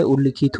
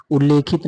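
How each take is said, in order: First: उल्लिखित with double l and short i; correct pronunciation. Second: उल्लेखित with a long e after l; wrong pronunciation. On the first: Teacher giving the correct form, short-i "ullikhit". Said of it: "उल्लिखित होता है". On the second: Teacher showing the wrong form, e-vowel "ulekhit". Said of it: "नहीं होता है". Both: Shown as a demonstration.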